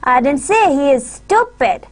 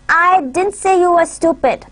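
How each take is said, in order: First: The stress is on the word stupid. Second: The stress is on the word I. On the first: "we would put our stress on stupid" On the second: "in the first sentence we would put our emphasis on I"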